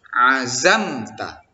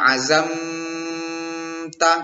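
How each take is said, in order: First: The m is quick, with no nasal hum. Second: The m is held with a nasal hum. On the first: The speaker calls it right. "Jadi mesti cepat dia" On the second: The speaker calls it wrong. "Misalnya azamta tidak boleh"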